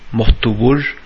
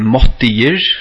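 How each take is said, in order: First: The later vowels are o-like, assimilated to the ending. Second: The later vowels are i-like, with no assimilation. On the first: "så brøyt jeg i til et O" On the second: "Det at jeg sier måttigir"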